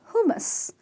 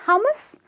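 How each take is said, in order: First: The first vowel is 'oo', the second like 'a'. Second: The vowels are not 'oo' and 'a'. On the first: The speaker calls it right. "it's who, as in the U is pronounced as double O" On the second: The speaker calls it wrong. "not hummus"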